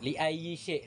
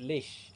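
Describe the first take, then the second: First: The phrase is said in full, three words. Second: The phrase is shortened to one syllable. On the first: This is the standard literary form. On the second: This is how native speakers say it casually.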